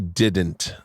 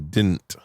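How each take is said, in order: First: The middle D sound is clearly pronounced. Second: The middle D sound is left out. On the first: "they don't say didn't" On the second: "They say didn't. They don't pronounce the D"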